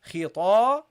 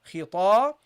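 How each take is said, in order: The two takes are said the same way.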